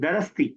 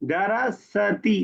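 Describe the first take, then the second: First: The s is pronounced with no following vowel. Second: A vowel is pronounced right after the s. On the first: The speaker calls it right. "उसमें सीन साकिन रहेगा।" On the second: The speaker calls it wrong. "गलती छोटी सी आप कर रही हैं। दरसती नहीं"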